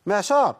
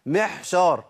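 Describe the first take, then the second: First: "معشار" بعين واضحة; أظهر العين في "معشار"; clear ain. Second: "معشار" بحاء "محشار"; العين مهموسة كالحاء; ain as haa. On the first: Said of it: "هي محشار ولا معشار". (نطق صحيح) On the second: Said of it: "ولا أقول". (نطق خاطئ) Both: Shown as a demonstration.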